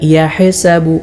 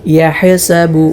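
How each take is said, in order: Both takes have the same delivery.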